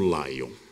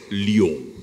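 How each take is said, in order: First: It is pronounced in an English style. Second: It is pronounced in a French style. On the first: The speaker calls it wrong. "bastante fluente em inglês, mas ... desconhecedor da língua de Molière" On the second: The speaker calls it right. "C'est Lyon"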